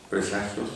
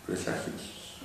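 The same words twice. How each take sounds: First: Said in the usual way. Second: Whispered syllable-by-syllable presagios. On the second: Shown as a demonstration. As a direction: whisper presagios, with the I barely there. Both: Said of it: "La I como que pierde fuerza en presagios".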